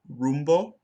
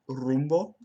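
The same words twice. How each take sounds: First: The r is an English retroflex r. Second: The r is a Spanish r. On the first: The speaker calls it wrong. "I mispronounced it with an English retroflex like" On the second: The speaker calls it right. "but it should be"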